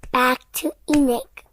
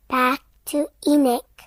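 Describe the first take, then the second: No difference in how they are said.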